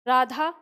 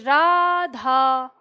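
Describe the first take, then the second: First: The name is said plainly with short vowels. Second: The name is called out with a drawn-out vowel. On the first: The name is simply read out. "तो इसका उच्चारण हम क्या करेंगे?" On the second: Someone is being called from a distance. "हम राधा को पुकार रहे हैं कि राधा, इस तरह से"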